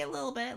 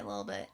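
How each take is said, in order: First: First take pitched higher. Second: Dropped low and soft; low quiet take. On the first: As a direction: sing it up high. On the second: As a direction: mutter it down low. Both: Real, not acted.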